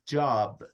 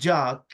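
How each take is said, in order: First: The word ends with a clear B sound. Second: The word ends with a consonant other than B. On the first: The speaker calls it right. "it's job. It's a B" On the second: The speaker calls it wrong. "It's not job"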